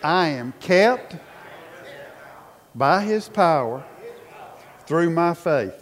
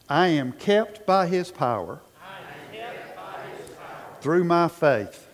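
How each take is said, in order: First: It is said forcefully, with strong conviction. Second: It is said in a plain, even manner.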